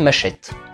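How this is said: The word is said with a French pronunciation. "Et en français"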